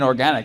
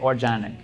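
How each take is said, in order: First: The word is said in a plain standard way. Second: The word is said in a put-on foreign accent. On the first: "I think you mean organic" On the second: "I give it like an ethnic pronunciation"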